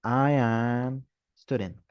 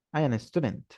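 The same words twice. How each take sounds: First: Slow, deliberately wrong English; teacher models the mistake; slow wrong example. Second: Said in the usual way. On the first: Shown as a demonstration. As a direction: say the incorrect version slowly. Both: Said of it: "En inglés yo no puedo decir esto".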